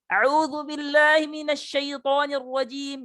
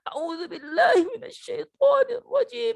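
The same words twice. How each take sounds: First: It is said with the jaw swung, sounding distorted. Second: It is said in a whimpering voice, like crying. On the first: "Atau membelok-belokkan rahang" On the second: "kayak orang menangis"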